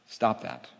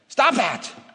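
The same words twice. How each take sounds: First: It is said in a calm, steady tone. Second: It is said in an anxious, worried tone. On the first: The call to action is driven by faith. The speaker calls it right. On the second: The call to action is driven by fear. The speaker calls it wrong.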